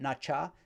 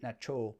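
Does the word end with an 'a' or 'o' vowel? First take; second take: a; o. First: The word ends with an 'a' vowel. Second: The word ends with an 'o' vowel. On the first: "that nacha" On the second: "some people will pronounce it nacho"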